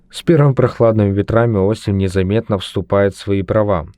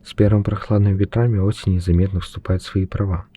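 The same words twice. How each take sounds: First: It is spoken at a normal volume. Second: It is spoken in a quiet voice. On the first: "Первая запись будет обычным голосом" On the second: "Вторая запись у нас будет тихим голосом"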